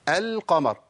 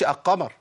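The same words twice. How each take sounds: First: "القمر" with a distinct l, "al-qamar"; clear lam. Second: "القمر" said "aqqamar", l swallowed; dropped lam. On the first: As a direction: sound the l fully before the q in "القمر". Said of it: "أنا بقول إيه؟". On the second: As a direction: wrongly merge the l into the q of "القمر". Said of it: "ما بقولش القمر". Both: Shown as a demonstration.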